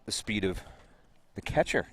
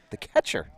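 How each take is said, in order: First: Incredulous. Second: Emphatic disbelief with a falling finish; incredulous. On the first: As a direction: ask it like you can't believe it. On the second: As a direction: land it like you're stunned. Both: Real, not acted. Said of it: "You sound incredulous".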